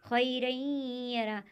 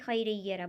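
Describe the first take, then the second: First: The merged sound is held with a nasal hum. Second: The merged sound is said without a held nasal hum. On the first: The speaker calls it right. "बल्कि खैरैयरा, आवाज़ को नाक में घुमाएंगे" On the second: The speaker calls it wrong. "इस तरह नहीं"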